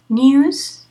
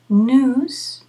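First: It is the pronunciation used in Britain and America. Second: It is the pronunciation used only in America. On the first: "News is British English and American English" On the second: "And news is only American English"

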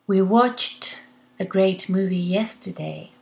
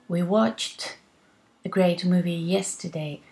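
No difference in how they are said.

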